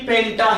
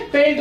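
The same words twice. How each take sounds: First: पेंटा ending in an open "taa"; added final A. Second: Said in the usual way. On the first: Shown as a demonstration. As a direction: sound the last vowel of पेंटा, pen-taa. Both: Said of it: "पेंट नहीं".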